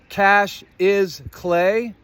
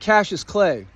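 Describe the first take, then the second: First: The first name is split into two words. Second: The first name is said as one smooth word. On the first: It suggests that money is worthless clay. "But if you say it like this" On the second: It sounds like a harmless ordinary name. "You say it like that, it doesn't sound so bad"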